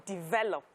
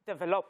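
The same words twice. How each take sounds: First: "Develop." said the way my husband corrects it; "Develop." as the husband says it; husband's correction. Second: "Develop." said the way I used to; "Develop." as I said it back then; my old way of saying it. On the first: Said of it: "He would say". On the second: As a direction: say "Develop." with my Nigerian habit. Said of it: "I used to say". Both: Retold or imitated.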